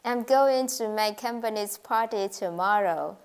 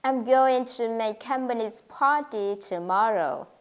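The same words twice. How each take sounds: First: Every word on much the same note; monotone demo. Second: "going", "company's", "party", "tomorrow" gently stressed; stressed content words. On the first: English teacher demonstrating a flat learner's sentence, monotone. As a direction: say it with little pitch change. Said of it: "you don't change the pitch of your voice". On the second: Teacher modelling the practice sentence, stress on "going", "company's", "party", "tomorrow". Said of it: "these words should be stressed". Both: Shown as a demonstration.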